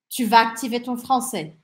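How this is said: The sentence has a flat declarative intonation. The speaker is stating that you will activate your French. "Afirmação"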